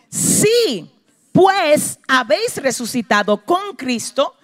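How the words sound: There is a pause after si.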